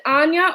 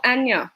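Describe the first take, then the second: First: Anya with a long open "ah" at the start; open-vowelled "AHN-ya"; pronunciation number one. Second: Anya with a short "a" as in cat; front-vowelled "AN-ya"; pronunciation number two. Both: Shown as a demonstration. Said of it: "is it number one or number two".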